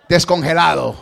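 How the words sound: It is said in a serious tone.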